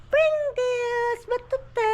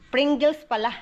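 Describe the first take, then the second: First: Loud, much higher call across the room. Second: Said in the usual way. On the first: Real, not acted. Mother calls out the snack name to be heard, loud and high. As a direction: shout it so they hear. Ha? calling to someone.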